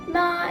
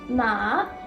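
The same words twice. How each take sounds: First: The pitch stays high and level throughout. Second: The pitch rises steadily from low to high. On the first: "Ma is a standard line, meaning the tone should stay the same" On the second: "Ma is a tone that slowly rises"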